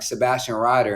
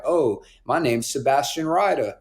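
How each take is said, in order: First: Said in the usual way. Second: Lightly imitated British accent; fake British accent. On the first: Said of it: "And I'd be like". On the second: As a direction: put on a bit of fake British, as dad's party trick. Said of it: "put on a fake British accent".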